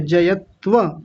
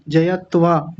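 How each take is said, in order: First: "जयत्व" ending in short a; correct short vowel. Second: "जयत्वा" ending in long aa; mistaken long vowel. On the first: Teacher correcting student, short final a in "जयत्व". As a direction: say "जयत्व" as ja-yat-va. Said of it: "जयत्वा थोड़ी है". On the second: Teacher imitating student's slip, long aa in "जयत्वा". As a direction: say "जयत्वा" as ja-yat-vaa. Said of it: "आ की मात्रा लगाई". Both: Shown as a demonstration.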